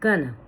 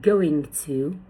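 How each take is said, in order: First: It is shortened to gonna. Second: It is said as two full words.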